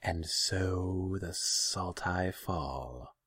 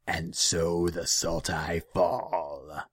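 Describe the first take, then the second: First: Very slow, higher, drawn-out serpent voice; echoing naga. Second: Loud, very slow demonic pronouncement; heavy, menacing creature voice; ominous demon. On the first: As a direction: echo the omen, stretching each word. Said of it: "the Naga echoed". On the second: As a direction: draw it out like a curse from the shadows. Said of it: "Kudal's voice seemed to come from the shadows". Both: A narrator's reading.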